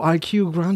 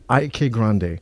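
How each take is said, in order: First: The first name is spelled out as two letters. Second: The first name is one syllable, rhyming with bike. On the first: The speaker calls it wrong. "a lot of people call it I Q Grande" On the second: The speaker calls it right. "thank you for pronouncing it"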